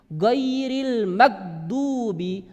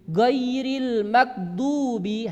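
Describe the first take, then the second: Both takes have the same delivery.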